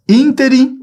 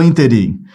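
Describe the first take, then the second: First: Ínterim with a long, high ÍN; first-syllable stress. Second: Interim with weight on RIM; last-syllable stress. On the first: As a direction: lead hard with the ÍN of ínterim. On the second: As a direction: push the final syllable of interim. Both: Shown as a demonstration. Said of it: "a pronúncia é ínterim e não interim".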